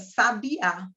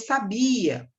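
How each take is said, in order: First: The stress is on the last syllable. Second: The stress is on the middle syllable. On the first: It names a kind of bird. "a sílaba tônica é o a" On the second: It means 'knew', from the verb saber. "Qual é a sílaba tônica? É o bia"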